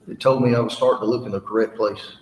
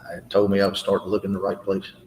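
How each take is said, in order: First: It is said loudly. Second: It is said quietly.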